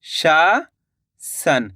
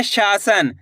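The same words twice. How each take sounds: First: शासन as a long rising शा, pause, low सन; शा...? सन, very slow dictation; split into syllables. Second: Said in the usual way. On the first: Shown as a demonstration. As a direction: break शासन in two with a big gap. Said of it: "तो मिलके बन जाएगा". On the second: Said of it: "क्या लिखेंगे?".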